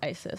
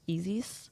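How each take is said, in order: First: The name begins with an 'eye' sound. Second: The name begins with an 'ee' sound. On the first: The speaker calls it wrong. "But Americans pronounce it ISIS" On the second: The speaker calls it right. "It's actually pronounced Easies"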